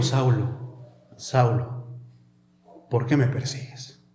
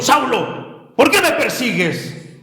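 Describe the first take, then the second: First: Low, soft, measured questioning; gently questioning. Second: Authoritarian. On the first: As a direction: question him quietly, leaving space between phrases. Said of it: "le estaba cuestionando". (cuestionando en voz baja y grave) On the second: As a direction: call him out sternly, like an authority. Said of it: "Más que sonar como autoritario". (tono autoritario, voz alzada) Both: Shown as a demonstration.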